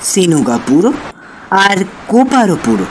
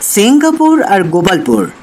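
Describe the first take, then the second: First: The clusters are broken up with extra vowels inserted. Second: The place names are said with normal consonant clusters.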